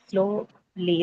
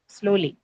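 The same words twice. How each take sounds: First: "Slowly" drawn out as slow, then lee; syllable by syllable. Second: Said in the usual way. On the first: Shown as a demonstration. Teacher testing for two syllables, "Slowly" drawn out in parts. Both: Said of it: "you have slow and lee".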